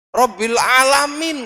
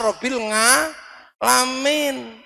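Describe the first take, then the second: First: It is said with standard Arabic pronunciation. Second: It is said with a Javanese accent. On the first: The speaker calls it right. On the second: The speaker calls it wrong.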